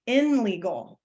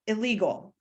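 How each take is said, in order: First: "in legal" with a clear N before the L; awkward "in legal" with N. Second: Said in the usual way. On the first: Shown as a demonstration. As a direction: keep the N distinct in "in legal". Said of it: "but then try to say". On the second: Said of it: "I can say that easily".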